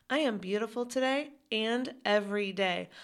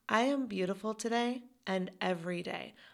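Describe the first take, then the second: Both takes have the same delivery.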